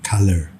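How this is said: The final R sound is slightly pronounced. "American English sedikit kedengaran R-nya di belakang"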